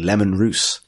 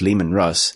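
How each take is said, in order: First: The second name rhymes with goose. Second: The second name rhymes with fuss. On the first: This is the official way it is said. "is apparently" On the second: This is how the speaker had always assumed it was said. "I thought was"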